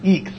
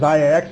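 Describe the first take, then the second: First: It is said as one word, eeks. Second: It is said as three separate letters. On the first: This is how people in the community say it. "that's how the asterisk geeks pronounce it" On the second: This is how it is read before hearing it spoken. "I always read it as I-A-X at first"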